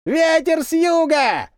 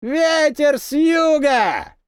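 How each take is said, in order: First: High, slow call from far off; the lone voice calling the signal a second time; distant cry again. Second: Very slow, high shout close by; the signal cry, now near and louder; louder, nearer cry. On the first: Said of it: "снова раздался тот крик". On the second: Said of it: "ещё громче и ближе". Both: A narrator's reading.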